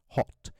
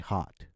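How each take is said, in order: First: The vowel is a very short rounded 'o'. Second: The vowel is an open 'ah' sound. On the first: "as in a neutral or a British accent as hot. Okay? A very short sound" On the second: "Americans say hot. So they have a ah sound to it"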